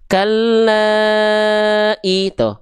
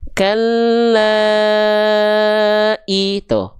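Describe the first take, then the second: First: It is recited at a fast tempo. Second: It is recited at a slow tempo.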